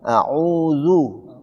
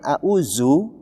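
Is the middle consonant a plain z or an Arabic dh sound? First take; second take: Arabic dh; plain z. First: The middle consonant is the Arabic dh sound. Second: The middle consonant is a plain z sound. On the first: The speaker calls it right. "padahal di situ adalah huruf za" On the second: The speaker calls it wrong. "kita katakan auzu itu z"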